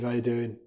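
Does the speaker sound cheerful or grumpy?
grumpy. It is said in a grumpy, flat tone. The speaker is in a bad mood. "We're in a bad mood"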